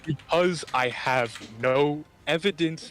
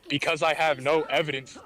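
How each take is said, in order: First: It is said slowly and deliberately. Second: It is said at a normal speaking pace.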